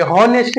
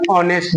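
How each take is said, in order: First: हॉनेस्ट with a clear h at the start; हॉनेस्ट sounding the h, the common mistake; wrong h pronounced. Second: ऑनेस्ट opening on the vowel, no h; ऑनेस्ट with the h dropped, correct; silent h. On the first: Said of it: "हॉनेस्ट नहीं". (हॉनेस्ट में ह बोलकर, गलत तरीका) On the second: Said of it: "ऑनेस्ट बोलेंगे". (ऑनेस्ट, ह silent, सही उच्चारण) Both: Shown as a demonstration.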